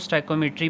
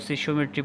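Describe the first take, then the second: First: The word begins with a 'stoyk' sound. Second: The word begins with a 'sish' sound. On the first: This is how it is said in engineering. "Engineering की term है ये, तो इसमें इसको स्टाइकोमेट्री पढ़ा जाता है" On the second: Some people say it this way. "कुछ इसको सिशियोमेट्री पढ़ते हैं"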